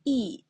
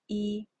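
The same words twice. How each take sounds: First: "E" falling from high; fourth tone. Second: "E" held level; first-tone "E", no rise or fall. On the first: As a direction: drop the pitch firmly through "E". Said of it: "is the fourth tone". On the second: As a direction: say "E" on one steady pitch. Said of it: "is the first tone". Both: Shown as a demonstration.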